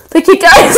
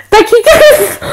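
First: Breaking character giggling. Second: Excited outro. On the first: Real, not acted. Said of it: "I can't do it with a straight face". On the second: Shown as a demonstration. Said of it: "It'll be like this. Like, watch".

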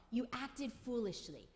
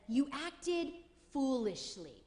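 First: Said in the usual way. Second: Slowly, weighing each word; slow stern quote. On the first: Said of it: "That's what he says to Saul". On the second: Retold or imitated. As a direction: say it as a heavy verdict. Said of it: "he says".

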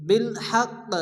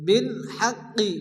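First: হাক্ক stopped on q with a small echoing release; light bounced stop. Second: হাক্কি with the i sounded after doubled q; slow হাক্কি ending on a vowel; full final vowel. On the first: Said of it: "হালকা একটু ধাক্কা দিয়ে". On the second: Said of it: "সে অক্ষরটিকে সাকিন করে". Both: Shown as a demonstration.

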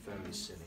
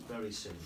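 No difference in how they are said.

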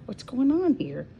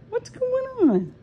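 First: High pet voice. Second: Very high, slow and sing-song; squeaky pet talk. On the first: High voice talking to the cats. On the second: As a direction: ask the cat in a squeaky voice. Higher, slower repeat to the cats. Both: Real, not acted.

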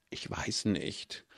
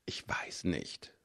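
First: Soft, slow, voiced „Ich weiß nicht“; softly hesitant, slow. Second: Unvoiced, hesitant whisper, slow; hushed uncertain whisper. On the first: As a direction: trail off, unsure and quiet. Hesitant reply to Iwan's urging. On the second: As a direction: breathe it out, unsure. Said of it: "flüsterte ich".

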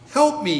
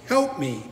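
First: Raised, pleading cry; mild plea for help. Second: Said in the usual way. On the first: A narrator's reading. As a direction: beg lightly from the edge of a cliff. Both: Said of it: "he pleads".

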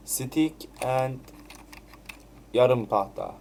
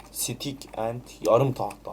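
First: Said in the usual way. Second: Slow mocking reread. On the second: Shown as a demonstration. Gamer rereads his own clumsy line, slowly mocking. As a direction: slowly repeat the odd phrase, mocking it. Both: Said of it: "O nasıl bir cümle la?".

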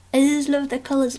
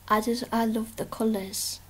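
First: Higher, louder, faster burst of love; excited. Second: Said in the usual way. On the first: Real, not acted. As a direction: gush it out with delight.

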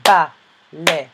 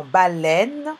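First: "baleine" in three separate beats, BA... LEI... NE; syllable by syllable. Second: Said in the usual way. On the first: Shown as a demonstration. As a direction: pause after each syllable of "baleine". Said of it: "deuxième syllabe". (« baleine » découpé en trois syllabes)

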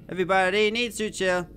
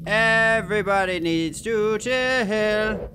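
First: Said in the usual way. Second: Slow, drawn-out crooned line; half-sing it, stretching every word; sung, sing-song. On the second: Real, not acted. Sung, nervous player telling everybody to chill, sing-song.

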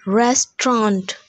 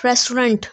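First: Restaurant as RES-tront, open last vowel; correct pronunciation. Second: Restaurant as RES-trunt, ending like rent; mispronunciation. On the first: Teacher giving the right form, correctly pronounced. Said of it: "The correct pronunciation is". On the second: Teacher showing the common error, mispronounced. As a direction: say restaurant with a short flattened last vowel. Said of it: "is not restaurant". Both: Shown as a demonstration.

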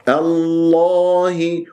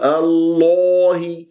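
First: الله chanted with thick l, open unrounded aa; correct heavy lam. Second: الله chanted with aa rounded towards o; wrong rounded vowel. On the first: Teacher shows right الله, slow unrounded chant. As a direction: hold a dark open vowel in الله. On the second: Teacher shows what not to say, rounded-vowel الله. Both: Shown as a demonstration. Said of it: "ولا تقول".

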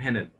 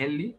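First: "هانل" ending on the l, no ee; Henle without final vowel. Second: "هانلي" said with a final ee sound; Henle ending in -ee. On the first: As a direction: say "هانل" as HEN-el. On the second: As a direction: say "هانلي" as two syllables, HEN-lee. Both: Shown as a demonstration. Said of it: "في ناس بتنطقها".

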